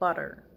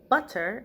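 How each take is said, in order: First: The middle consonant is a soft d sound. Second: The middle consonant is a crisp t sound. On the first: "we say butter" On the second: "like in British English"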